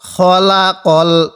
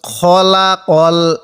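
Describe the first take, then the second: The two takes are said the same way.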